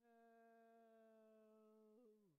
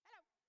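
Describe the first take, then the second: First: It is said slowly. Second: It is said quickly.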